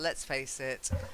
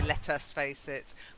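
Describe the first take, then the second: First: Let us is contracted to one syllable, let's. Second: Let us is said as two full words. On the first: The speaker calls it right. "We'd say, oh, let's face it" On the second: The speaker calls it wrong. "we wouldn't say let us face it"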